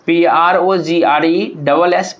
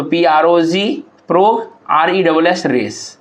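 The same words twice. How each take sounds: First: Said in the usual way. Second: Each half spelled, then sounded as "pro" and "रेस", with a pause between; broken into syllables. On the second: Shown as a demonstration. ("Pro" और "रेस" को अलग-अलग तोड़कर, बीच में रुककर) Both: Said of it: "progress को अगर तोड़ा जाए".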